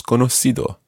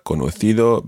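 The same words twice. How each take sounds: First: Conocido with the c as s; Latin American pronunciation. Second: Conocido with the c as th; Castilian pronunciation. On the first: Teacher showing learners Latin America's form, conocido with an s. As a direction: say conocido with an s sound, no th. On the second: Teacher contrasting accents for learners, conocido with a Castilian th. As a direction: say conocido with a Spain-style th sound. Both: Shown as a demonstration. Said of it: "obviously in Latin America".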